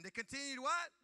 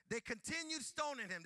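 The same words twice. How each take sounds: First: What thrown out high and loud, rising; preacher prompting the congregation, rising what; call-and-response cue. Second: Continued held long, loud and falling; preacher cues the crowd, stressing continued. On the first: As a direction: shout what for the crowd to answer. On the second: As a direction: lean into continued as a cue. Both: Shown as a demonstration.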